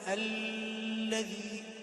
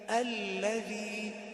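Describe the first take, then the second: First: The doubled l is held far too long. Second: The doubled l is held briefly. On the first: The speaker calls it wrong. "لا تقول الذي، لأن هذا خطأ شائع" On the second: The speaker calls it right. "هو فقط تشديدة واحدة"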